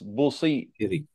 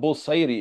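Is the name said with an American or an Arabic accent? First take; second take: Arabic; American. First: The name is said with an Arabic accent. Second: The name is said with an American accent. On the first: The speaker calls it right. "it's Busayri" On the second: The speaker calls it wrong. "Americans, like they say, Imam Busayri. It's not Busayri"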